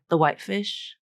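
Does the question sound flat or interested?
flat. It rises only slightly, sounding flat. She has no desire to eat the fish. "flat, still went up on that word"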